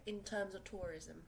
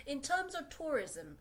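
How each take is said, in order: First: Said in the usual way. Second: Slow, higher and louder, leaning on terms; "terms" pushed up high and stretched; emphatic. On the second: Shown as a demonstration. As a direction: drive the point home on terms.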